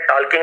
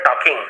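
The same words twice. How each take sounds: First: टॉकिंग with the silent L sounded, "tol-king"; wrong L pronunciation. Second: टॉकिंग with no L, "taw-king"; silent L. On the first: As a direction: say टॉकिंग wrongly with an audible L before the k. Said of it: "यहाँ पे एल silent है". (टॉकिंग में ल बोलकर, "टॉल्किंग") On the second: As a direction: say टॉकिंग correctly, leaving the L silent. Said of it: "टॉकिंग नहीं बोलेंगे". (टॉकिंग में ल silent, "टॉकिंग") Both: Shown as a demonstration.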